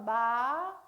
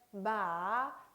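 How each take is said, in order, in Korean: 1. 음높이가 음절 내내 꾸준히 올라갑니다. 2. 음높이가 내려갔다가 부드럽게 흐려집니다. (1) "마 올려주고요" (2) "흘려주듯이 발음을 하면 되겠습니다"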